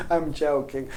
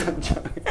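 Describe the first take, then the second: First: Said in the usual way. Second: Said through a breathy laugh; giggling confession to the viewer. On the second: Real, not acted. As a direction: laugh the words out, half-whispered.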